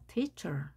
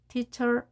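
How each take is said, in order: First: The first syllable is stressed and higher in pitch. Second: Both syllables are said evenly at one pitch. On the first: The speaker calls it right. "높낮이를 줘서 발음을 해야 됩니다" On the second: The speaker calls it wrong. "이렇게 똑같이 발음하는 것이 아니라"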